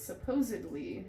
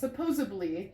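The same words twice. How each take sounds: First: It is pronounced with a d sound. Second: It is pronounced with a b sound. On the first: The speaker calls it right. "It's supposedly is how you say it" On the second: The speaker calls it wrong. "that's a D, not a B"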